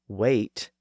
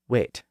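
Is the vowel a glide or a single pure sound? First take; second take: glide; pure. First: The vowel glides between two sounds. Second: The vowel stays one steady sound. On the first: The speaker calls it wrong. "not as diphthongs" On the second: The speaker calls it right. "vowel sounds should be pronounced as pure vowels"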